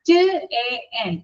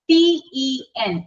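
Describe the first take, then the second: First: Each letter is said as its short sound. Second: Each letter is said by its alphabet name. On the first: "അത് pronounce ചെയ്യേണ്ടത് ഇങ്ങനെയാണ്" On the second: "ഈ ടി എൻ നമ്മൾ എഴുതുമ്പോൾ"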